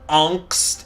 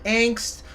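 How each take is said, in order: First: The word has its original German vowel. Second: The word has an anglicized English vowel.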